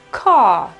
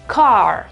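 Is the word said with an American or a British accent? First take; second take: British; American. First: There is no r, only a long vowel. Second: The final r is sounded at the back. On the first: "secondo l'inglese britannico... la R scompare e c'è soltanto una A prolungata" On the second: "in American English, la pronunciamo car"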